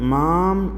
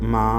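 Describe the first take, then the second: First: The word ends with a full m sound. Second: The word ends with a nasalized vowel, no consonant. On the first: The speaker calls it wrong. "മാം എന്നോ മാൻ എന്നോ നമ്മൾ ഉപയോഗിക്കാതെ" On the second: The speaker calls it right. "അതിൻ്റെ ഇടയിലാണ് ഇതിൻ്റെ ഉച്ചാരണം"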